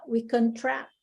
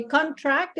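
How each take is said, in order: First: ConTRACT, the verb, stressed at the end; stress on second syllable. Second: CONtract, the noun, front syllable stressed; stress on first syllable. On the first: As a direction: lean on the last syllable of contract. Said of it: "if you use it as a verb". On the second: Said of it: "is like an agreement". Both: Shown as a demonstration.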